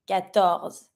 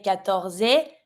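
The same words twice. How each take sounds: First: Quatorze ending on z, final E silent; stop at Z. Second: Quatorze mispronounced "katorzay"; slow wrong quatorze with an extra "zay" syllable; wrongly sounded final E. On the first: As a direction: cut Quatorze off at the z. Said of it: "just stop at the Z". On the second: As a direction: add a rising é to the end of quatorze. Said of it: "Don't say quatorze". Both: Shown as a demonstration.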